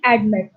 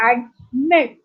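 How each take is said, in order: First: Said in the usual way. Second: "admit" split into two spaced syllables, "ad... mit"; accent on last syllable. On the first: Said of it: "like pronounce with me". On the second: Shown as a demonstration. Teacher shows the class where admit is accented, stressing "mit" in "admit". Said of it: "accented on the last syllable".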